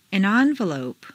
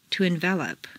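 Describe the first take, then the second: First: ENvelope, stressed on the first syllable. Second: EnVELop, stressed on the second syllable. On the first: Teacher models noun "envelope", first-syllable stress. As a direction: hit EN in "envelope". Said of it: "first syllable for nouns". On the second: Teacher models verb "envelop", second-syllable stress. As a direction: hit VEL in "envelop". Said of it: "to the second syllable". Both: Shown as a demonstration.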